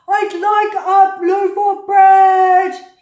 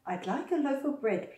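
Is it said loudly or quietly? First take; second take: loudly; quietly. First: It is said in a loud, booming voice. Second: It is said in a soft, quiet voice.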